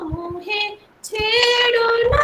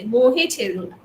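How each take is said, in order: First: It is said in a playful, romantic tone. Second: It is said in an angry tone.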